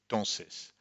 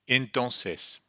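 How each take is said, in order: First: The word is clipped, with the opening 'en' dropped. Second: The word is said in full with its opening 'en'. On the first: "what we hear is entonces" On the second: "you would hope to hear entonces"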